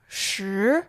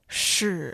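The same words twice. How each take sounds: First: The pitch rises from mid to high. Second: The pitch dips low, then rises.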